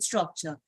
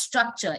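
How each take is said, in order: First: The first syllable sounds like 'straw'. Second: The first syllable sounds like 'struck'. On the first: The speaker calls it right. "It's actually straw plus structure, which makes it" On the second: The speaker calls it wrong. "People mispronounce it as structure"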